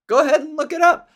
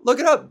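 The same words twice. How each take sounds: First: Higher and louder mocking taunt; mock smug taunt. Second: Higher, pushy little jab; mock smug taunt. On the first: Mocking a know-it-all friend, a loud smug taunt. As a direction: throw it back at him, smug and loud. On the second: Mocking the friend who spoiled it, a pushy jab. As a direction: poke him with it.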